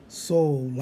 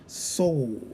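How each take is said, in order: The two takes are said the same way.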